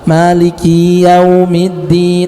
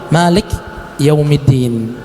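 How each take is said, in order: First: The vowel after the k is drawn out long. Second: No vowel is heard after the k. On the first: "Ini panjang" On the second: "jangan sampai kita mensukunkannya"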